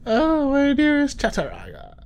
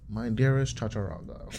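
First: High, loud mock lover's cry; hammed-up swooning. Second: Said in the usual way. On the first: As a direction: swoon over her name theatrically.

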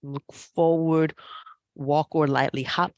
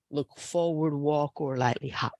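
First: Said in the usual way. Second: Hushed unvoiced whisper; whispered cue. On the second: Real, not acted. Yoga teacher whispering the transition cue to the class. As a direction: murmur the cue under your breath.

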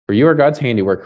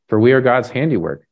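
First: "you are" said louder, pointed at the listener; stress on you. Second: Said in the usual way. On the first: Shown as a demonstration. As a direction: read "For you are" straight at them. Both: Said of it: "this is you".

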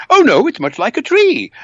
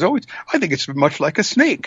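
First: Much higher, louder character voice; contradicting blind man. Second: Slightly raised, musing storybook voice; lightly voiced blind man. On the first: Acted. Second blind man disputing the elephant, high loud protest. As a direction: object loudly in a high put-on voice. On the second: First blind man describing the elephant, lightly acted higher voice.

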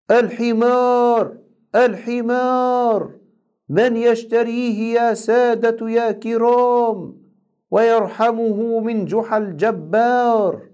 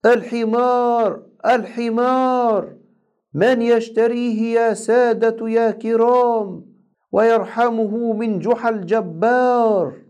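First: High, slow drawn-out market cry; street vendor call. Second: Street vendor call. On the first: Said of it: "وهناك أخذ ينادي". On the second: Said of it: "وراح ينادي قائلا". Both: A narrator's reading. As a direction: call out the donkey for sale to the crowd.

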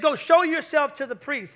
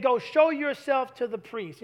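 First: Louder, punchier command; emphatic quote. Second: Slow, deliberate quote. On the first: Preacher repeating Jesus' command louder for emphasis. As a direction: proclaim the words with force. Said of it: "I'm gonna tell you why he did that". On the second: Preacher quoting Jesus slowly to the congregation. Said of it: "He said". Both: Shown as a demonstration.

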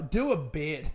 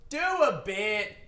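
First: Said in the usual way. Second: Slow, deliberate "Do a bit."; "Do a bit." said slowly, each word spaced out, like an order to himself; slow self-command. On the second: Real, not acted. Comic telling himself to get back to jokes, slow and deliberate. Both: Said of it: "Write a fucking jo".

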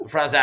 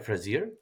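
First: "Frazier" louder, French-style, no final r; attempted French pronunciation. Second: "Frazier" with an English-style r ending, questioning; unsure pronunciation. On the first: Host retrying the guest's French name after a slip, louder attempted French. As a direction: belt out "Frazier" with an open, r-less French ending. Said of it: "in my best French accent". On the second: Host checking the guest's name with her, unsure pronunciation. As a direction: say "Frazier" tentatively, sounding the final r. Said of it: "Did I say it right?". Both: Shown as a demonstration.

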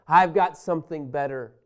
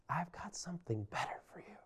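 First: Said in the usual way. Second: Whispered, intimate promise; God whispering a tender promise to Israel. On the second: Acted. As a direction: lean in and breathe it like a secret.

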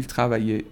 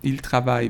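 First: "travaille" wrongly ending in é, tra-va-YAY; slip with final é. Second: "travaille" ending on a y glide, tra-VAI; corrected silent ending. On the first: Teacher misspeaks while conjugating, "travaille" said as travaillé. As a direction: add an ay sound after "travaille". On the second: Teacher corrects own slip, "travaille" with silent ending. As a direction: stop "travaille" at the y, no final é. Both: Real, not acted. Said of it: "ببخشید اشتباه گفتم".

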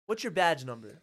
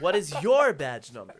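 First: Loud, level challenge to an officer; raised, businesslike confrontation; firm demand. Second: "your" punched very loud; loud, forceful challenge stressing "your"; emphatic demand. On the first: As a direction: demand it firmly, without extra punch. First demand to cop, acted. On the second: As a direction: separate the words and hit "your" hard. Repeated, harder demand to cop. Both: Retold or imitated.

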